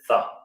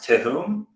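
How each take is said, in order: First: The name is said in its Americanized form. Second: The name is said in its original German form. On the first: This is how the family says it now. "I guess we pronounce it Thumb" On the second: This is how the family originally said it. "originally it was pronounced Tehum"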